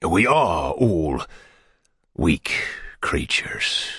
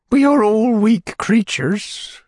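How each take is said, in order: First: Drawn out and fading into a whisper; slow whisper. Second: High, slow fluttery widow; fussy widow voice. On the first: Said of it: "Bumble repeats her words". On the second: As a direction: sigh it out like a delicate widow. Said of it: "Widow Corney's voice". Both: A narrator's reading.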